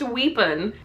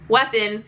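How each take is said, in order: First: The first vowel is a long 'ee' sound. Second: The first vowel is a short 'eh' sound. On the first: The speaker calls it wrong. "it's pronounced weepon" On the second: The speaker calls it right. "it's definitely pronounced weapon"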